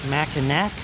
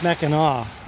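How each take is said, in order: First: The word ends with an 'ack' sound. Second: The word ends with an 'aw' sound. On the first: The speaker calls it wrong. "like I've been pronouncing it" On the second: The speaker calls it right. "it's really pronounced Mackinac"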